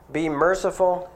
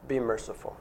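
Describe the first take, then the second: First: Said in the usual way. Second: Preacher urging his congregation, soft and earnest; softly urging. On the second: Shown as a demonstration. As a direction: drop the voice low on be merciful, gently insistent. Repeats the command softer.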